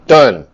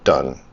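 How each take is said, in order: First: Loud, punchy single word; announced completion. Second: Low, quiet single word; muttered completion. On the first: Man declaring the form finished to viewers, called out loud. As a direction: call it out firmly, at full volume. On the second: Man finishing an online form, muttered low. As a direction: say it down low to yourself. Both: Real, not acted.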